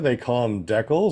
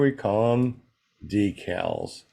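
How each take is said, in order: First: Decals is said the Canadian way. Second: Decals is said the American way.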